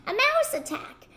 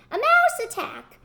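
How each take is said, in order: First: High panicked cry; hollering in panic. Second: High, louder panicked shriek; louder hollering. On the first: Storyteller to children, collector woman panics at the mouse, high cry. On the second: Storyteller to children, collector woman flees the mouse, louder shriek. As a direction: top the last cry, even louder. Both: Acted. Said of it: "she ran hollering".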